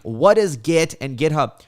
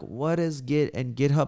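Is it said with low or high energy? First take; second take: high; low. First: It is said loudly with high energy. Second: It is said with restrained, low energy.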